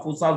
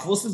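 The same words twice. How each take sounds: First: फोसास ending in long "-saas"; variant pronunciation. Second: फोर्सेस ending in short "-ses"; alternative pronunciation. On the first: Presenter telling listeners either name works, फोसास ending "-saas". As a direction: say फोसास with "aa" in the last syllable. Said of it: "आप फोसास बोलो". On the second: Presenter telling listeners either name works, फोर्सेस ending "-ses". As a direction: say फोर्सेस with "e" in the last syllable. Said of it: "आप फोर्सेस बोलो". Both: Shown as a demonstration.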